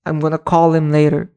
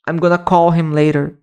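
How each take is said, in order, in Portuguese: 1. As palavras são reduzidas e ditas juntas. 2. As palavras são reduzidas e ditas juntas.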